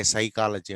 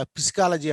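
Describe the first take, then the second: First: సైకాలజీ starting with "sai", no P; correct, silent P. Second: పిసికాలజీ with the silent P sounded, "pis-ka-la-ji"; wrong, P voiced. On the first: Teacher confirming the accepted word, silent-P pronunciation. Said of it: "సైకాలజీ అంటాం". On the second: Teacher showing what nobody says, deliberate mispronunciation. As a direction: misread psychology as పిసికాలజీ. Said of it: "అనం మనం". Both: Shown as a demonstration.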